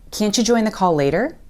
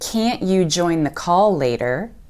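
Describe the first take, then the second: First: The t and y blend into a ch sound. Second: The t and y are said as separate sounds.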